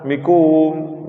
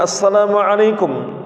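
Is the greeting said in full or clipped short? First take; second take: clipped; full. First: The greeting is clipped to its last syllables. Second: The greeting is said in full. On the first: The speaker calls it wrong. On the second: The speaker calls it right.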